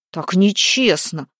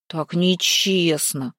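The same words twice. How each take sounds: First: Loud indignant protest; young man protesting to the fiery maiden. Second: Slow sulky complaint; Гвидон sulking over the unfair riddle; offended. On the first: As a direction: protest that the game is unfair. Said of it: "возмутился Гвидон". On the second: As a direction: drag it out like a hurt boy. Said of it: "повторил обиженный Гвидон". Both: A narrator's reading.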